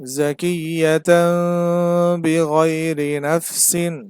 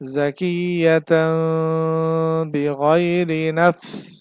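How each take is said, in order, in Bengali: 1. শেষ শব্দের শেষ অক্ষরটি পুরোপুরি থাকে। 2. শেষ শব্দটি ব্যঞ্জনবর্ণে এসে ছোট করে কাটা হয়।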